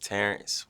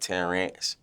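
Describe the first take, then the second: First: The first vowel has an E sound. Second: The first vowel has an A sound. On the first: The speaker calls it right. "the correct way to pronounce my name is" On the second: The speaker calls it wrong. "they be putting an A instead of the E"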